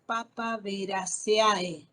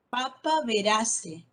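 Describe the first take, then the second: First: Papaveraceae leído letra por letra, con la a y la e sonando aparte; wrong reading. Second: Papaverace with the ending ae read as one e; correct reading. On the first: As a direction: pronounce Papaveraceae with every vowel sounded. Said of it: "No digo Papaveraceae". (pronunciación incorrecta: Papaveraceae con a-e separadas) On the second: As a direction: say Papaverace, ending in a plain e, slowly. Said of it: "Esta E A E se lee como E". (pronunciación correcta: Papaverace, terminación como e) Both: Shown as a demonstration.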